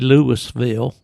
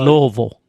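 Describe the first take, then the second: First: Pronounced the way outsiders to Kentucky say it. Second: Pronounced the way Kentucky locals say it. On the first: The speaker calls it wrong. "you go to te- Kentucky, you don't say Louisville" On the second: The speaker calls it right. "you say"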